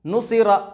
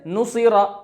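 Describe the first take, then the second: The two takes are said the same way.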